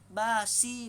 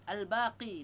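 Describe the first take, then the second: First: The middle consonant is an 's' sound. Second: The middle consonant is a deep 'q' sound. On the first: The speaker calls it wrong. "Tapi disebut basi" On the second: The speaker calls it right. "nama Allah Al-Baqi"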